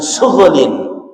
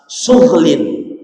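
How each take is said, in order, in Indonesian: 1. Vokal u pendek memisahkan bunyi gh dan l. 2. Bunyi gh dan l menyatu tanpa vokal. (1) "tidak dibaca dengan surlin" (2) "Jadi orinnya itu pakai sukun"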